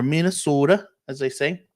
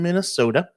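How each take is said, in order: First: Lightly put-on Minnesota accent; amateur imitation of a Minnesotan accent; bad Minnesota accent. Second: Said in the usual way. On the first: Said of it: "I know my accents are really bad". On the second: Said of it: "or Minnesota, as they say".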